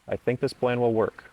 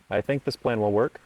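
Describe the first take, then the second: First: The pitch falls at the end of the sentence. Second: The pitch rises at the end of the sentence. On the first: The speaker sounds confident. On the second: The speaker sounds timid.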